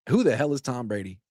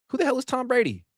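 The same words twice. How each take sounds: First: Said in the usual way. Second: High-pitched mock outburst; "Who the hell" pitched way up in disbelief; mocking Crosby. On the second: Mocking Crosby calling out Brady, high indignant outburst. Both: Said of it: "Crosby called him out on it".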